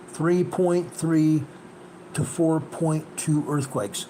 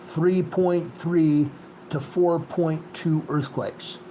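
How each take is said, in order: First: Even slower, Three point three dragged out word by word; slower emphasis. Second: Each number spelled out slowly, x0.6; slow emphasis. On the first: Repeating the range to viewers, slower and more insistent. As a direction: repeat the range at half pace, hammering it home. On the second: Stressing the quake range for viewers, slow and deliberate. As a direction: lay the range out slowly so it sinks in. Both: Real, not acted. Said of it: "I'm going to emphasize".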